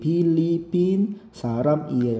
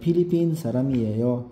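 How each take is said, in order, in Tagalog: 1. Pinuputol-putol ang mga salita, hindi maayos na dumadaloy. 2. Magkakadugtong na dumadaloy nang maayos ang mga salita, walang putol. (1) "hindi Philippine Saramieo. Hindi pwede, kailangan magpukan siya smooth" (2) "ang basa dyan ay Philippine Saramieo"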